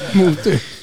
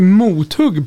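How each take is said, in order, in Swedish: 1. Andra stavelsen har ett svenskt y-ljud. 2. Andra stavelsen har ett svenskt u-ljud.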